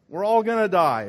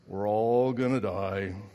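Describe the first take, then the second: First: It is said in his normal voice. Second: It is said in a gloomy Eeyore voice.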